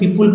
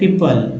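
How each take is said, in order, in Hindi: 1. दूसरे अक्षर में पूरा 'oo' स्वर है। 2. दूसरे अक्षर में छोटा, हल्का स्वर है।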